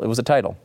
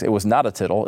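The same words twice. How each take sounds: First: Said in the usual way. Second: "tittle" with a short i, like little; misspelling read literally. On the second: Shown as a demonstration. Correcting the blogger's typo, "tittle" with a short i.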